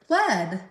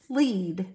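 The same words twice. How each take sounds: First: The vowel is a short e, as in led. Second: The vowel is a long e, as in leed. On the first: It is the past tense, as in guided someone. "E A can just say eh" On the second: It is the present or future, to guide someone. "pronounced with the long E sound"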